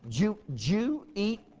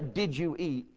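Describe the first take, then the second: First: It is said in a Southern US accent. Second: It is said in a plain standard accent. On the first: "They say" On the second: "They don't say"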